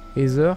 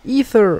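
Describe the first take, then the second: First: The name is said with a French pronunciation. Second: The name is said with an English pronunciation. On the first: "en français, ça serait" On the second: "en anglais, ça serait"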